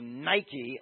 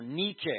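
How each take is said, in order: First: It is said the English way, like the brand. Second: It is said with the Greek pronunciation.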